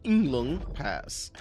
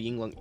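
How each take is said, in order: First: Yinglong Pass drawn out slowly, each syllable stretched like Chen says it; imitating Chen's pronunciation. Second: Said in the usual way. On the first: Streamer mimicking how Chen said the place name, slowed right down. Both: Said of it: "as Chen says it".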